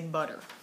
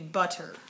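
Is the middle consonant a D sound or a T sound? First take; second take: D sound; T sound. First: The middle consonant sounds like a soft D. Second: The middle consonant is a crisp T sound. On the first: "I definitely say butter" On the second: "technically it should be butter"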